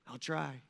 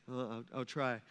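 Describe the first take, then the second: First: Soft, small "I'll try"; a quiet, unsure "I'll try"; meek reply. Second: "Uh, I'll, I'll try" with faltering repeats, soft and low; mimicking how we all dodge with a hesitant "I'll try"; hesitant stammer. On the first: Acted. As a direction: answer timidly, barely committing. Disciple answering Jesus meekly. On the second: Shown as a demonstration. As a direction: stumble into a reluctant "I'll try". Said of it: "isn't that what we say?".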